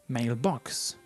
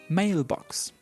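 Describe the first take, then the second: First: The stress is on the second syllable. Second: The stress is on the first syllable. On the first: The speaker calls it wrong. "We don't say mailbox" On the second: The speaker calls it right. "the stress goes in the word mail. ... We say mailbox"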